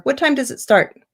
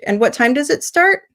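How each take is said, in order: First: High opening, pitch dropping on "start"; falling WH question. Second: Higher pitch, climbing up on "start"; rising WH question. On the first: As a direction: bring the voice down on "start". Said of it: "Both are fine". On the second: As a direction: ask it with a lift on "start". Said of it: "sometimes a W H, like". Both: Shown as a demonstration.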